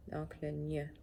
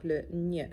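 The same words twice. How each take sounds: First: "gn" said softly as a single nasal sound, as in montagne; gn shown softly. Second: Said in the usual way. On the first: Shown as a demonstration. Teacher softly models "gn" for students. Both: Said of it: "Je veux vous montrer comment on le prononce".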